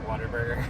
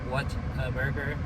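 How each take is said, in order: First: Said fast, run together like one word. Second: Three separate words, said slowly and clearly. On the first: "if you say it fast enough, it sounds like Waterburger" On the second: "the name is what a burger"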